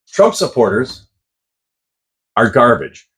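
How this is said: It is said with a comma pause.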